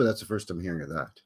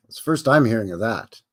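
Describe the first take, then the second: First: Muttered faster and softer; repeated as a soft, fast aside to yourself; quiet quick aside. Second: Said in the usual way. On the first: Shown as a demonstration. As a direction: toss it off under your breath, quickly. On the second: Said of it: "but that's the first I'm hearing of that".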